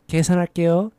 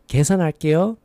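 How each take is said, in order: Both takes have the same delivery.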